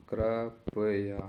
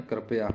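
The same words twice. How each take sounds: First: कृपया in three slow, separate syllables; very slow sounding-out. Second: Said in the usual way. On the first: Shown as a demonstration. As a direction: break कृपया into kri, pa, ya. Teacher sounds out the spelling. (कृपया को धीरे-धीरे तोड़कर)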